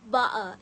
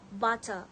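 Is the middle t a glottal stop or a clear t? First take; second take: glottal stop; clear t. First: The middle t becomes a glottal stop. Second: The middle t is pronounced clearly.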